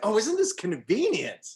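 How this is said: It is said in a put-on character voice.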